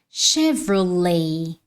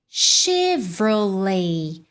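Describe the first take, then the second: First: It is said with an English pronunciation. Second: The same.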